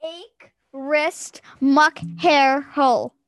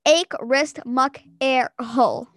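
First: Slow word-by-word, "Hair" with an audible H; each word set apart, H pronounced on "Hair"; H sound in HAIR. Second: Word by word, "Air" starting straight on the vowel. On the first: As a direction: say "Hair" with a breathed H at the start. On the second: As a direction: drop the H so it is "Air". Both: Shown as a demonstration. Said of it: "Air, not hair".

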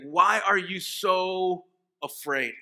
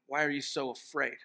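First: Slow, louder, each word pressed; slow pointed rebuke. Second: Said in the usual way. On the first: Shown as a demonstration. Jesus rebuking his frightened disciples, slow and pointed. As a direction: let the rebuke land, word by word.

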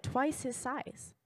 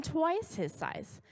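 First: Said in the usual way. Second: TWICE pitched high and drawn out; emphatic, higher "twice", stretched for amazement; stress on TWICE. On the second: Real, not acted. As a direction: lean hard on the word twice, slowly. Repeats it for emphasis.

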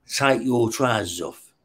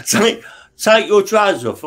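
First: A slow, soft, menacing imitated cop order; a cop orders the prisoner, slow and quiet. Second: A higher, louder mock cop command; a cop repeats his order, raised and insistent; louder repeated order. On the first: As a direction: drawl the command softly like a cop. Cop gives an order in the cell. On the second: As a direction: bark the demand again, pushing.

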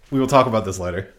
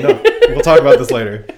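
First: Firm and serious, lower voice; stern. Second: Laughing. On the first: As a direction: say it flat and stern, no laughing. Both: Shown as a demonstration.

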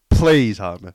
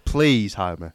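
First: Begging louder; plead, pushing the volume up. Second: Said in the usual way. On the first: Pretend. Repeated louder plea.

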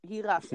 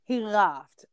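First: Said in the usual way. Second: Whispered, breathy and unvoiced. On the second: Shown as a demonstration. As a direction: whisper it as a secret aside.

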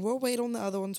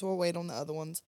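First: A lighter, higher take on We'll wait; light high ladies' voice. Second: Said in the usual way. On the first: Retold or imitated. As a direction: quote the ladies a bit higher. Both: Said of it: "they kept saying".

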